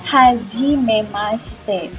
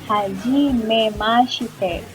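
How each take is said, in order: Both takes have the same delivery.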